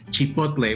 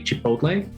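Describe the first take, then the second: First: It is said with a Spanish pronunciation. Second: It is said with an American pronunciation. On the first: "The correct pronunciation in Spanish is" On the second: "American pronunciation would be"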